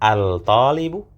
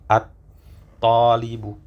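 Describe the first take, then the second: First: The L of the article is clearly pronounced. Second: The L merges into a doubled T sound. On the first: The speaker calls it wrong. "Apakah al-talibu?" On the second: The speaker calls it right. "lamnya yang sukun tidak terbaca"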